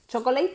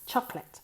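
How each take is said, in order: First: "Chocolate" as cho-co-leit, last part like "late"; three-syllable mispronunciation. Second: "Chocolate" as CHOC-let, middle vowel dropped; two syllables. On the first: Teacher shows Spanish speakers the error, three-syllable cho-co-late. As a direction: sound every vowel in "Chocolate", ending in "leit". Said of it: "Chocolate no". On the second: Teacher corrects the learners' error, two-syllable chocolate. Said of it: "Dos sílabas". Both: Shown as a demonstration.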